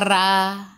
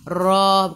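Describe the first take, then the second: First: The r is light, with no raised tongue. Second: The r is heavy, with the tongue raised. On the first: The speaker calls it wrong. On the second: The speaker calls it right. "ra baca tebal lah"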